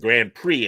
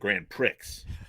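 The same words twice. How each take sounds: First: The final X is silent. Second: The final X is pronounced. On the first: The speaker calls it right. "when it's just an X, it's silent" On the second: The speaker calls it wrong. "it's not the Grand Prix"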